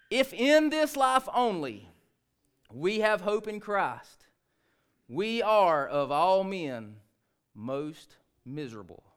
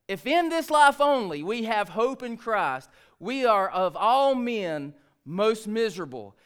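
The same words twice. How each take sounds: First: Grave verse reading that fades to a hush; solemn scripture reading. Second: Slow, firm verse reading at full voice; measured, weighty pulpit reading; emphatic scripture reading. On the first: Slow solemn first verse reading. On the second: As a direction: proclaim it slowly, phrase by phrase. Repeats the verse more firmly. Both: Shown as a demonstration.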